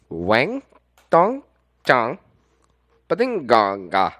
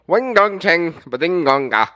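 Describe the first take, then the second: First: It is said more slowly. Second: It is said at a normal, faster pace.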